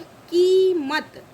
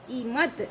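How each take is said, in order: First: कीमत slow and loud, kee held, then mat; long ee. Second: Said in the usual way. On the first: Shown as a demonstration. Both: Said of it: "उच्चारण कैसे करते हैं वो देख लेते".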